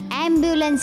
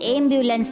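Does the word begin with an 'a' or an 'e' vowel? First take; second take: a; e. First: The word begins with an 'a' vowel. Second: The word begins with an 'e' vowel. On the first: The speaker calls it right. "ॲम्ब्युलन्स आहे" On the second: The speaker calls it wrong. "ती एम्ब्युलन्स नाही"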